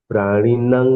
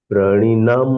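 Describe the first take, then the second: Both takes have the same delivery.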